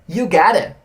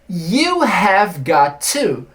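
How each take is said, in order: First: 'Have' drops and 'got to' blends into 'gotta'. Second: Every word is said fully, with no contraction. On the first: "é uma contração de uma expressão muito maior" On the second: "you have got to significa você tem que"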